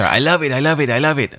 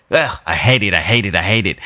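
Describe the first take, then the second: First: Raving in a light mock Spanish accent; attempted Spanish accent. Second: Lower-pitched mock disgust in a rough Spanish accent; attempted Spanish accent. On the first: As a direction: imitate a gushing friend with a rough Spanish accent. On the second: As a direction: imitate a friend's loathing, putting on a Spanish accent. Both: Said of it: "Joe's attempt at a Spanish accent".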